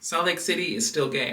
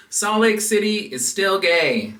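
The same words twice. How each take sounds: First: Said in the usual way. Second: Loud, high slogan call; announcer shout. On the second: Shown as a demonstration. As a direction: call it out like a rally chant. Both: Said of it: "I had to practice it a few times".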